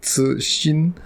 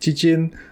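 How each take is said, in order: First: The name begins with a ts sound. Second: The name begins with a ch sound. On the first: This is closest to the original pronunciation. The speaker calls it right. "The closest to the actual pronunciation" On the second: This is how the hosts said it before. The speaker calls it wrong. "We said Chichin"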